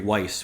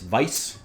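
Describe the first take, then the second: First: The word is said with an English pronunciation. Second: The word is said with a German pronunciation.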